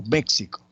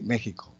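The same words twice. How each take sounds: First: "México" with the x as KS. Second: "México" with the x as a Spanish J. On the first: Teacher giving the alternative with X as X, KS pronunciation. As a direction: say "México" like "Méksico", x as K plus S. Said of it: "funciona como X". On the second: Teacher giving an example of X as J, J-sound pronunciation. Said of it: "funciona como J". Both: Shown as a demonstration.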